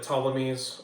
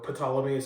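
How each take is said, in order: First: The word starts with a silent P. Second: The word starts with a sounded P.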